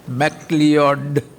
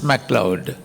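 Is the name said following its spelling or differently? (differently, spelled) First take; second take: spelled; differently. First: The name is sounded out following its spelling. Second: The name is said differently from its spelling. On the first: The speaker calls it wrong. "If you spell it out like that, pronounce it like that" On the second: The speaker calls it right. "the correct pronunciation is MacLeod"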